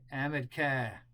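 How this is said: It is said in a New England accent.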